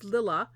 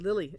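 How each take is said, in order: First: The name ends in an 'ah' sound. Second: The name ends in an 'ee' sound. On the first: The speaker calls it right. "It's Lilla" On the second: The speaker calls it wrong. "I thought I said that wrong. I said Lily"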